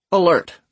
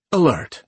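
First: High, nasal alert cutting in. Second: Airy, breathy announcer. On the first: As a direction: interrupt with a nasal PA alarm. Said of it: "Titus interrupts". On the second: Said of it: "her voice a breathy contrast to Titus's". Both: A narrator's reading.

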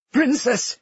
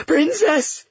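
First: High, hurt falling cry; a pained appeal, pitched well up. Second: Very high, strained call; desperate cry. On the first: Hurt Enzo appeals to Cleo, pained. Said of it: "his voice pained". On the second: Trapped people call up to the princess, desperate. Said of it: "the mournful sound of cries". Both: A narrator's reading.

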